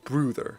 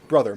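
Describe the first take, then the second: First: The first vowel has a rounded, umlaut-like sound. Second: The first vowel has its ordinary English sound. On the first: "I pronounce it "brother" because I feel some sense of weird, quirky joy" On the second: "It's just meant to pronounce "brother"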